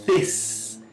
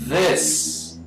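First: "this" with a voiceless TH, like "thiss"; hissed, buzzless start on "this"; wrong "this" without any vibration; unvibrated TH. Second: "this" opening on a low held buzz; vibrating TH. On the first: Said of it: "Não é". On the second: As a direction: draw out the voiced TH of "this". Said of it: "Olha só". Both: Shown as a demonstration.

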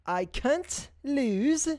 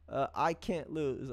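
First: Sung, high, very slow sing-song call; sung title. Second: Said in the usual way. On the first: Shown as a demonstration. Host hyping the artist with a slow sung call. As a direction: stretch the title high like a chant.

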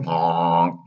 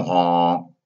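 First: A single donkey honk; a boy turning donkey honks at a stranger. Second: A honk slipping out like a donkey; a puppet boy turning into a donkey, honking by accident. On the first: Pinocchio honks at dock man. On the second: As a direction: honk like a donkey mid-sentence. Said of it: "said Pinocchio". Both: Acted.

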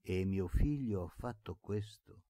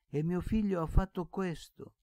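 First: Said in the usual way. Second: Much higher and louder, cracking with grief; the blind uncle lamenting his son's deed; anguished repetition. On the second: Acted. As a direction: wail it out in anguish. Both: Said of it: "ripeteva zio Pietro".

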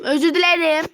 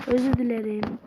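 First: Loud, raised-pitch apology; apology that bursts into a shout; accidental shouting. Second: Said in the usual way. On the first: Real, not acted. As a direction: belt out the apology too loudly. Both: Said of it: "gene bağırdım".

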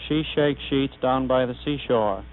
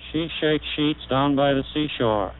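The two takes are said the same way.

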